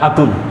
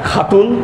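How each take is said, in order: First: The word begins with a plain breathy h sound. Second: The word begins with a rough, raspy kh sound.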